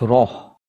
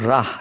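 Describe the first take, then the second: First: The r syllable is heavy with a thick vowel. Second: The r syllable is light with a thin vowel. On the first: The speaker calls it right. "ra is a thick sound. Ra tafkhim" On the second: The speaker calls it wrong. "not rah"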